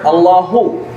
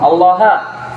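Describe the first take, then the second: First: The word ends in a short u vowel. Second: The word ends in a short a vowel.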